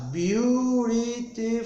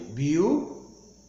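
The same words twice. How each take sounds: First: "beautiful" drawn out slowly, higher, in four syllable beats. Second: "Beautiful" split into three beats with clear pauses; beautiful in three syllables. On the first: Teacher counting syllables for students, "beautiful" slowly split in four. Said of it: "com pausa". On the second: Teacher recounting syllables for students, "Beautiful" in three paused beats. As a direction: break "Beautiful" slowly into three separate syllables. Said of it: "ou será três?". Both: Shown as a demonstration.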